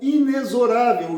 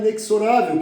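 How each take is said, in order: First: The x is pronounced like a z. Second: The x is pronounced like ks. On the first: This is the more common pronunciation. "o X com som de Z" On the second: This is a less common but accepted pronunciation. "apesar de muitos usarem inexorável, que até também é aceito"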